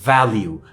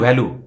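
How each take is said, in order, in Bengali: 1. v হলো একটি fricative, উপরের দাঁত নিচের ঠোঁটে লাগিয়ে তৈরি। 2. v হলো দুই ঠোঁট দিয়ে তৈরি একটি স্টপ। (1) "উপরের দাঁত নিচের ঠোঁট" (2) "this is not the correct pronunciation"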